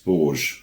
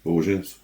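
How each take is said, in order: First: Borges as one syllable, "borzh"; unsure pronunciation. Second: Borges in two syllables, "BOR-zhuz"; unsure pronunciation. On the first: Host puzzling over an author's name, unsure pronunciation of Borges as "borzh". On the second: Host guessing at an author's name, tentative pronunciation of Borges as "BOR-zhuz". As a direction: try Borges softly with a zh and an -uz ending. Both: Real, not acted. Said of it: "I don't even know how to pronounce it".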